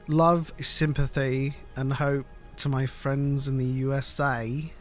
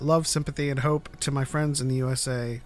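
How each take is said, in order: First: It is read in a put-on British accent. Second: It is read in the speaker's ordinary accent.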